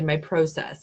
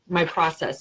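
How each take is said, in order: First: Process is said the way Canadians say it. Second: Process is said in the speaker's usual non-Canadian way.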